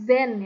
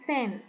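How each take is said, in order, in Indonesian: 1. Diawali bunyi z biasa. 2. Diawali bunyi ts. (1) "Z-nya hati-hati bukan Z" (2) "tapi T S E T"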